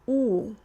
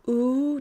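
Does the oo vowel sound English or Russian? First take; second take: Russian; English. First: The vowel is made with the tongue back. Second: The vowel is made with the tongue forward. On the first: The speaker calls it right. "if I want to sound Russian, I need to draw my tongue back" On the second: The speaker calls it wrong. "an American English oo, is in its a regular sort of position"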